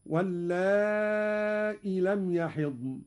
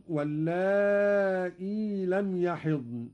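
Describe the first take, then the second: First: Slow recitation, "واللائي" ending in a short i after the hamza; ya dropped. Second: Slow recitation, "واللائي" ending in a long ee after the hamza; ya retained. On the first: Teacher demonstrating Qalun's reading, "واللائي" as walla'i. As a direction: stretch the long a of "واللائي", cut the final ee. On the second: Teacher quoting the verse before the variant, "واللائي" as walla'ee. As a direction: stretch "واللائي" and keep its final long ee. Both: Shown as a demonstration. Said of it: "بحذف الياء في الموضعين".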